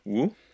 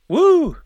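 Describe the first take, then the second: First: It is said flatly, with little excitement. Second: It is said loudly, with clear excitement. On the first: The speaker calls it wrong. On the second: The speaker calls it right.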